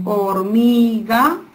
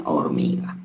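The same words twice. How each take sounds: First: "hormiga" stretched out as hor, mi, ga; syllable by syllable. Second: Said in the usual way. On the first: Shown as a demonstration. Teacher giving syllables for a child to join, syllable by syllable. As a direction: break "hormiga" into three long syllables, rising at the end. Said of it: "ejemplos para unir sílabas". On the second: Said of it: "¿qué dice?".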